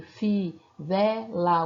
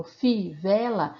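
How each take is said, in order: First: "fi, vela" as three separate beats, fi, ve, la; clap-along split of "fi, vela"; oral syllable separation. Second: "fi, vela" broken after fi; word in syllables. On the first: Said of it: "separação de sílabas oral". ("fi, vela" separado sílaba por sílaba) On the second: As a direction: sound out "fi, vela" in pieces. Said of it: "a gente pega imagens". ("fi, vela" dito em pedaços) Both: Shown as a demonstration.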